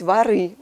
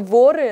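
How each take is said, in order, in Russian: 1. Ударение падает на последний слог. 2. Ударение падает на первый слог. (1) "но номинатив плюрал здесь воры" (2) "они обычно воры"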